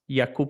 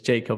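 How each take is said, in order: First: The name is pronounced with Czech sounds. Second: The name is pronounced with English sounds. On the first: "in a Czech way" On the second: "in English"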